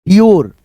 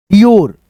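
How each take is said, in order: Both takes have the same delivery.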